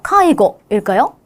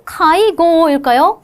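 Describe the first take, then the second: First: 카이고 with a short 고, asked as a question; short final vowel. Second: 카이고 with the 고 drawn out, then questioning; long final vowel. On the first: Teacher offering students the second choice, short 고 in 카이고. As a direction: keep the 고 of 카이고 short, then ask. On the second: Teacher offering students the first choice, long 고 in 카이고. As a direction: stretch the 고 of 카이고 before asking. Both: Shown as a demonstration. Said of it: "이렇게 짧게 읽어야 되겠죠".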